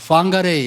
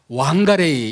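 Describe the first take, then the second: First: The word begins with an f sound. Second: The word begins with a w sound. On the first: "다르게는 방가레이 이렇게 읽을 수도 있습니다" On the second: "이렇게 읽을 수도 있고"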